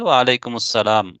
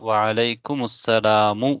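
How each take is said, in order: First: The phrase ends with a bare m sound. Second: The phrase ends with a short u vowel. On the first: The speaker calls it wrong. "மீமுக்கு சுக்கூன் செஞ்சாங்க" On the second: The speaker calls it right. "அப்ப வஅலைக்குமுஸ்ஸலாமு ன்னு தான் இருக்குது"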